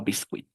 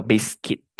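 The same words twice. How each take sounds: First: Biscuit mispronounced "bis-kwit"; wrong pronunciation. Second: Biscuit said "BIS-kit"; correct pronunciation. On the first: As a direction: sound the U in biscuit as W. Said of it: "no ui". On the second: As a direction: silent U in biscuit. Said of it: "La U y la I suenan I". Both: Shown as a demonstration.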